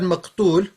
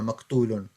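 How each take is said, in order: First: The word ends on a bare final consonant. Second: The word ends with an added '-un' syllable. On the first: Shortened form with the ending dropped. "you put a sukun, you stop in there" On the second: Full grammatical form. "that's the proper way of saying it with the grammar"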